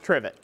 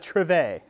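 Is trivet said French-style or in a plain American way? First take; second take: plain American; French-style. First: It is said in a plain hillbilly American way. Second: It is said in a fancy French-style way.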